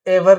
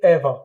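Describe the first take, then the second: First: "ever" with the final R pronounced; wrong, sounded R. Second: "ever" ending in an open ah, eh-va; non-rhotic "ever"; silent R. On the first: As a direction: say "ever" as eh-vur with a clear R. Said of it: "ever नहीं बोलेंगे". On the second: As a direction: drop the final R of "ever". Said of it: "आर को silent करके बोलेंगे". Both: Shown as a demonstration.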